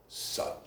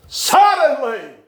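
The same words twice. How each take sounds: First: Whispered suddenly. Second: Suddenly drawn out high and slow; suddenly cried out high and slow; slow ringing suddenly. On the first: Whispered suddenly before loud repeat. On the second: Same word then cried out slowly. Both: Acted.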